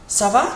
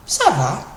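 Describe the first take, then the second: First: "Ça va" asked, lifting on va; question intonation. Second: "Ça va" answered, falling at the end; reply "Ça va" with a downward turn; answer intonation. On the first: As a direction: open with "Ça va" as a rising question. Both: Shown as a demonstration. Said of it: "with a different intonation".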